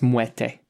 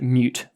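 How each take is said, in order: First: It is said as two syllables, like 'muerte'. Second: It is said as one syllable, like 'mute'. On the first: The speaker calls it right. "apparently it's called it's pronounced muerte" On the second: The speaker calls it wrong. "I pronounced it mute for a long time"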